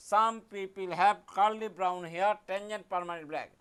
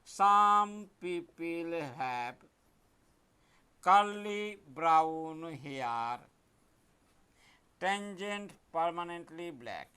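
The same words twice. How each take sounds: First: Chanted, slow sing-song recital; chanted mnemonic. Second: Very slow, stretched words while writing; slow dictation. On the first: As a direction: chant the rhyme slowly to the class. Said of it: "এই কবিতা কিন্তু মুখস্থ করবে". (chanted, ধীরে ছন্দে আবৃত্তি) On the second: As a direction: drag each word out as you write it. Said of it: "দেখো আমি কেমন করে লিখছি". (লিখতে লিখতে খুব ধীরে বলা) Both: Shown as a demonstration.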